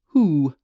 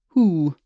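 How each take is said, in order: No difference in how they are said.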